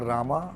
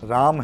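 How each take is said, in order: First: The word ends with an added a vowel. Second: The word ends on the m consonant. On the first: The speaker calls it wrong. "नारायणा रामा नहीं है" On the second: The speaker calls it right. "राम है"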